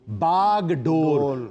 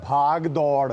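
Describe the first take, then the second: First: Starts with plain b and ends in dor. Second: Starts with aspirated bh and ends in daud. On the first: The speaker calls it right. "ये लफ्ज है बागडोर, ना भाग है ना दौड़ है इसमें" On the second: The speaker calls it wrong. "कभी कह दिया जाता है भाग दौड़"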